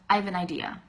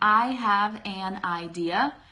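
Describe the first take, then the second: First: It is said fast as 'I've n idea'. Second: Every word is said fully and slowly.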